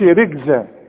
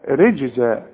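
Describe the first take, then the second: First: The j sound is a hard g. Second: The j sound is a soft j. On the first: The speaker calls it wrong. "ما تقولش رجزاء" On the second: The speaker calls it right. "الجيم في القرآن لازم تعطش"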